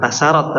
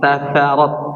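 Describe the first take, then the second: First: The middle consonant is a hissing s sound. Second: The middle consonant is a heavy t sound. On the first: The speaker calls it wrong. "Bukan tasarat" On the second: The speaker calls it right. "tapi tatharat"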